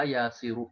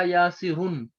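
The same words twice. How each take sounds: First: यासिरु ending in a short "u", no "n"; tanween dropped. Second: यासिरुन ending in a sounded "n"; with tanween. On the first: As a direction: end यासिरु on "-ru" without tanween. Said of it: "ये तनवीन खत्म हो गई". (यासिरु बिना तनवीन, अंत में छोटा उ) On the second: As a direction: say यासिरुन with "-run" at the end. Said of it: "इस पर तनवीन थी". (यासिरुन तनवीन के साथ, अंत में न) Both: Shown as a demonstration.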